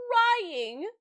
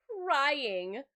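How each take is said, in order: First: "crying" very high, loud and drawn out; hammed-up loud stress on "crying"; wailed CRYING. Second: "crying" higher and louder than usual; "crying" stretched with a rising end; emphatic CRYING. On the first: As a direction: wail the word "crying" for drama. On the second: Retold or imitated. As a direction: lean on the word "crying". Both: Repeats word, escalating, for emphasis.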